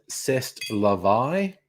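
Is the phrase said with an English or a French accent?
French. It is said with a French accent.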